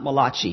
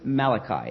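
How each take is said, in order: First: The name is said in an Italian-sounding way. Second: The name is said in a plain English way. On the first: The speaker calls it wrong. "It's not Malachi. He's not an Italian prophet" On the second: The speaker calls it right. "And it is Malachi"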